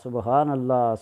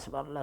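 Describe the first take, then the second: First: It is said slowly, with pauses and wonder. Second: It is said quickly and mechanically, without pauses. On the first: The words are said with attention and awe. The speaker calls it right. "ठहराव के साथ ... ऐसे ताज्जुब के साथ पढ़ें" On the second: The words are rattled off by rote. The speaker calls it wrong. "तस्बीह को ख़त्म कर रहा था ... ऐसे नहीं"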